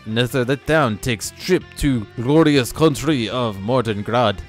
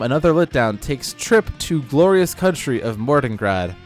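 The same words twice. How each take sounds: First: It is read in a put-on Russian accent. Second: It is read in the speaker's ordinary accent.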